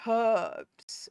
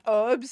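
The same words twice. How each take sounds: First: The word begins with a clear h sound. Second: The word begins without an h sound. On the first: This is how it is said locally. "we say herbs with the her" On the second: This is how it is said elsewhere. "I know it's herbs around the world"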